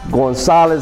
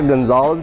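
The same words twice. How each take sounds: First: The name is pronounced the Spanish way. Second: The name is pronounced the English way. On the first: The speaker is proud of a Mexican heritage. The speaker calls it right. "Say Gonzalez" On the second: The speaker hides a Mexican heritage. The speaker calls it wrong. "and not Gonzalez"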